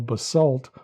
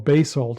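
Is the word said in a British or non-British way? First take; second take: non-British; British. First: The word is said in a non-British way. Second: The word is said in a British way.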